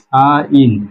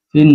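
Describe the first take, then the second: First: The vowel glides, like in 'sign'. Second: The vowel is short, like in 'sin'. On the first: The speaker calls it right. "এটা হলো সাইন" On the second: The speaker calls it wrong. "সিন না, অনেকে সিন পড়ে"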